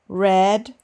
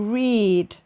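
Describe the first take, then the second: First: The vowel is a short 'e' sound. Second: The vowel is a long 'ee' sound. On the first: It is the past form. "the simple past and the past participle, pronounced E, like in edge" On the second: It is the present or infinitive form. "the infinitive with the sound E, like the letter E"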